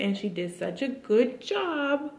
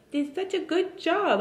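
First: High, slow praising coo; baby talk. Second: Very high sing-song coo; baby talk. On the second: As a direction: praise the baby in a cooing voice. Repeated praise to baby. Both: Acted.

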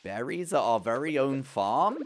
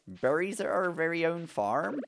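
First: Higher, slow, swooping up on "farm"; slow singsong wonder, ending on a rise; playful exclamation. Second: Put-on slow, high UK farmer accent; playful UK farmer accent, rising at the end. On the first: Pretend. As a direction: stretch it out with a big rise at the end. First take before farmer accent. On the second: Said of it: "like a U K farmer accent".

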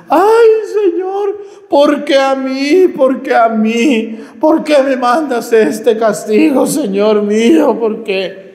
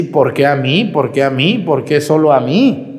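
First: High, loud, slow wailing plea; mocking wailing woman. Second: Said in the usual way. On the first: Priest mocks a dying woman begging God, high loud wail. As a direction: ham up a sick woman's howling lament. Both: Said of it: "estos alaridos de esta señora".

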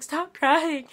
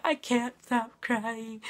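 First: Louder, higher mock scolding; imitated exasperated husband. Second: Slow, drawn-out whiny protest; mock weepy whine. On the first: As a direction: order it like a fed-up husband. Imitates husband telling her off. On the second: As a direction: whine it as if still weeping. Imitates her own weepy reply.

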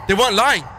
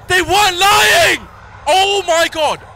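First: Said in the usual way. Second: High slow panicked shout. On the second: Real, not acted. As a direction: yell it out in disbelief. Realizing friends were right.

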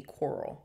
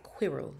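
First: Quirrell said in the reader's American accent; reader's own accent. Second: Quirrell with an attempted English accent. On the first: Reader shows listeners how she says the name Quirrell, own accent. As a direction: say Quirrell your own way, not the English way. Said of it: "in my accent, it'd be Quirrell". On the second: Reader shows listeners the British name of Quirrell, English accent. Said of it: "in the English accent, it's like Quirrell". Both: Shown as a demonstration.

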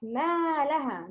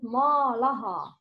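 First: ما لها with a full, open ما; teacher models ما لها for a student; correct ما لها. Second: ما لها with a wrongly coloured ما; teacher shows the mistake in ما لها. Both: Shown as a demonstration. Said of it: "Mim and lam is heavy letters".

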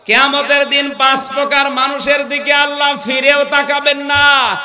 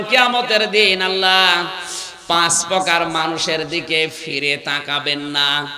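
First: High, louder preaching restatement; emphatic repeat. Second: Said in the usual way. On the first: Real, not acted. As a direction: drive the warning home in a raised voice. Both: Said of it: "আপনি কি লক্ষ্য করলেন কি বললাম?".

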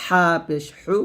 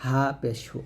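First: হা and হু squeezed from mid-throat; pressed throat H. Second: Softer, lower হা and হু; thin glottal H. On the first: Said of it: "চাপ দিয়ে". (চাপ দিয়ে হু) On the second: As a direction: let হু out without squeeze. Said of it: "কণ্ঠনালীর শুরু থেকে". (পাতলা করে হু) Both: Shown as a demonstration.

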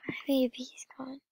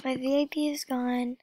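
First: Whispered quickly, almost to herself; fast whisper. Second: Quiet lament. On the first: Vlogger repeating the loss to herself, in a quick whisper. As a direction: let it slip out as a whisper. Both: Real, not acted. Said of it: "so sad".

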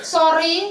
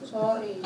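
First: Said in the usual way. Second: A mumbled, throwaway sorry with no feeling behind it; flat, careless sorry. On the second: Shown as a demonstration. Teacher shows how a child says sorry without meaning it, mumbled flat. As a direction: toss off a hollow apology, softer. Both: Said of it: "Muka sorry-nya nggak ada".

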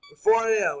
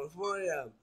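First: Emphatic time call. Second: Said in the usual way. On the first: Real, not acted. Relief at the hour.

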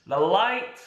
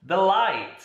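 Both takes have the same delivery.

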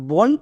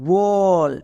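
First: Said in the usual way. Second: বল with a long, held o sound; বল sustained on the o to show the sound; drawn-out vowel. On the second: Shown as a demonstration. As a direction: stretch the vowel in বল so it can be heard. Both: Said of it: "আবার একটা ও sound আসছে".

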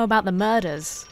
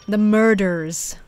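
First: Said in the usual way. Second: Slow, exaggerated American "murders"; put-on American accent. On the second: Shown as a demonstration. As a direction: lean hard on the American R's, slowly. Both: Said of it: "I have to say murders in an American accent".

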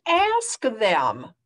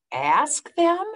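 First: Said in the usual way. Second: Higher questioning; puzzled echo. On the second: Acted. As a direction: repeat it, baffled. Gerald puzzled.

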